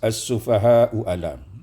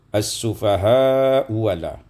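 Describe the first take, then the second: First: The second word starts with a glottal stop. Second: The second word starts with a w sound.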